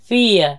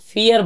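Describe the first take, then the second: First: The word ends in a vowel without r. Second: The word ends with a pronounced r sound. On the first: "ওরা বলে ফিয়া।" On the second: "এরা ফিয়ার বলে না"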